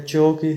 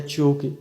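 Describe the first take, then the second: First: Ch into round o in چو; "cho" sound. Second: Ch into long oo in چو; "chu" sound. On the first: Teacher shows C with I and O, "cho" sound. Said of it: "تو آواز نکلی ہے چو". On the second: Teacher shows C with I and U, "chu" sound. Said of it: "تو آواز نکلی ہے چو کی". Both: Shown as a demonstration.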